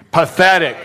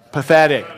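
First: Emphatic, higher and louder PATHETIC; like you mean it. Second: Said in the usual way. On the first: Shown as a demonstration. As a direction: punch out Pathetic with conviction. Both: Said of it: "Say it like you mean it".

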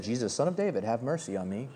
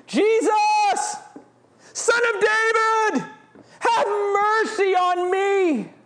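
First: Soft, low and limp; flat reading. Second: High, loud desperate cry; screamed plea. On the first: Preacher mocking how people read it, soft and low. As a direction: read it off the page without feeling. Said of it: "We read it like". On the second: Blind beggar screaming to Jesus, high and loud. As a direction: scream it out to be heard. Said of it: "He screams it". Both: Shown as a demonstration.

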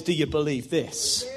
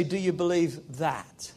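First: Low, soft question landing on "this"; stress on THIS. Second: Low, soft question landing on "that"; stress on THAT. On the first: Preacher showing what Jesus says, stressing "this". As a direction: set "this" apart as the word really said. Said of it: "Jesus says". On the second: Preacher showing what Jesus doesn't say, stressing "that". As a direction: set "that" apart as the word not said. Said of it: "He doesn't say". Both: Acted.

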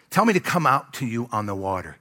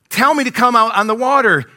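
First: Even, measured reading of a verse; restrained Bible reading; scripture reading. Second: Loud, high acted challenge; acting out a disciple calling across the water; testing Peter. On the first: A narrator's reading. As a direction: read it out as written, without pushing. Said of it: "let me read it". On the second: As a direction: call out boldly as if daring him. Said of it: "starts to kinda test it".

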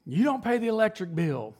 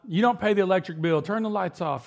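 First: A hint of dad's lecture, pitched higher; lightly mock a father nagging about the bill; dad's nagging, higher and pushed; imitating dad scolding. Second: A touch of fatherly nagging, a bit higher; mock dad ordering the kids about; light impression of a nagging father; imitating dad scolding. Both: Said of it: "my dad used to rail us about that".

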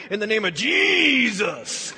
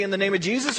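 First: "Jesus" stretched slow and grand, mock-holy; hammed-up holy "Jesus", slow and solemn; mock preacher's Jesus. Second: Said in the usual way. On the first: Shown as a demonstration. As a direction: drawl "Jesus" like a showy preacher. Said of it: "the way they said it, that must be more powerful". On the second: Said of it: "how do you say the name Jesus".

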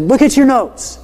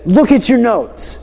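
First: High-pitched exasperated demand; insist, losing some patience with a student; irritated teacher, pitch pushed up; more irritated. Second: Higher, drawn-out teacherly demand; retold teacher's firm reminder; mildly irritated. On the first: Retold or imitated. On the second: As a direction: press the class slowly, a little exasperated. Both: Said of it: "I'm getting a little irritated now".

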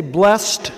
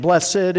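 First: Blessed as one syllable, "blest". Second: Blessed in two syllables, "bless-ed". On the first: Preacher explains the past tense form, one syllable "blest". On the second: Preacher explains the adjective form, two syllables "bless-ed". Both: Shown as a demonstration. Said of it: "I've heard it both ways".

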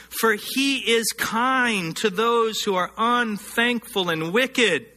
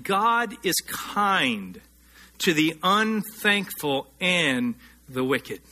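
First: Said in the usual way. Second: "God is kind" drawn out very slowly, each word weighted; slow emphatic restatement. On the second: Shown as a demonstration. Preacher repeats the verse to his church, very slow and stressed. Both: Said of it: "let me say that again".

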